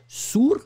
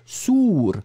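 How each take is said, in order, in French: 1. La voyelle est courte, prononcée comme un seul son. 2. La voyelle est longue, les deux voyelles étant prononcées. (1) "c'est pas sour" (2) "on prononce les deux voyelles"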